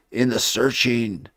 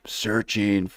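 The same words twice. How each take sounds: First: Said in the usual way. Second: Whispered echo. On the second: Shown as a demonstration. Echoing his own word.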